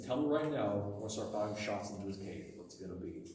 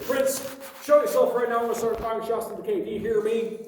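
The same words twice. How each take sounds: First: Retold threat, sinking low and soft; quietly menacing storyteller's quote; calm threat. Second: High, loud storyteller's shout; acted shouted threat into the dark; retold panicked yell. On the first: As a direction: let the calm ultimatum drop lower and quieter. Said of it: "Very calmly said again". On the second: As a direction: yell it out high, acting rattled. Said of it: "got shaky and yelled out".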